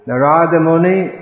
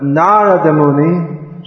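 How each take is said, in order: First: "Narada" as nuh-RAA-duh, middle syllable long; mispronounced Narada. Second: "Narada" as NAA-ruh-duh, first syllable long; Narada stressed on first syllable. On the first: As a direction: wrongly stress the RA in "Narada". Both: Shown as a demonstration. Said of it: "must be an impostor".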